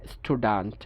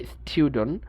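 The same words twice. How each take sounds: First: American স্টুডেন্ট as STOO-dant; no Y glide in স্টুডেন্ট; American pronunciation. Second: British স্টুডেন্ট as STYOO-dun; Y glide in স্টুডেন্ট; British pronunciation. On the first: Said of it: "ওরা বলে". (স্টুডেন্ট-এ উ, American) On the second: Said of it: "ব্রিটিশরা বলে". (স্টুডেন্ট-এ ইউ, British) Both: Shown as a demonstration.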